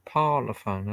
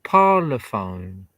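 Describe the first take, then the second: First: Said in the usual way. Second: Parlophone drawn out slowly, PAR-lo-phone, louder; slow careful spelling-out. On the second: Shown as a demonstration. Reading the record label aloud, slowly sounding out Parlophone.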